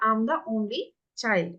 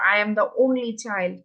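First: I am is contracted into one syllable. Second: I am is said as two full words. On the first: The speaker calls it right. "উচ্চারণ শুরু হলো" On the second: The speaker calls it wrong. "আই এম তো আসলে লেখার সময় হবে"

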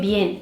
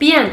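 First: The e vowel is said more closed. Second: The e vowel is said more open. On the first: The speaker calls it right. "insanların o e'yi birazcık daha kapattığını" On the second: The speaker calls it wrong. "bien şeklinde aşılanırsa"

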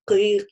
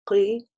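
First: The consonant is released with a puff of air. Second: The consonant is crisp with no puff of air. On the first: The speaker calls it wrong. "с таким подачей воздуха, да, часто делают в этом ошибку" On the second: The speaker calls it right. "должен быть четко, без дополнительных вот, без воздуха"

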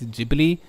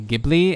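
First: The word is given its Japanese pronunciation. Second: The word is given an English pronunciation. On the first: "in Japanese it's Ghibli" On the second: "a lot of English speakers say Ghibli"

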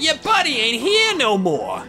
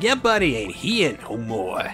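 First: It is said in a high, nasal voice. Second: It is said in a lower-pitched voice.

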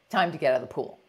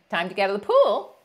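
First: The voice falls at the end. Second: The voice rises at the end.

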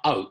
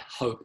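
First: The word starts without an h sound. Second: The word starts with a clear h sound. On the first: The speaker calls it wrong. "and not hope" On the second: The speaker calls it right. "I tried hope"

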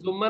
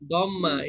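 First: It begins with a J sound and an U vowel. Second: It begins with a D sound and an A vowel. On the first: The speaker calls it wrong. "এটা আমরা জুম্মা বলবো না" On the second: The speaker calls it right. "দম্মা বিফাতহে দদ"

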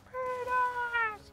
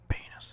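First: The word is shouted very loudly. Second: The word is said very quietly.

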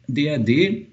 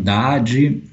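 First: The acronym is pronounced the German way. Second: The acronym is pronounced the Brazilian way.

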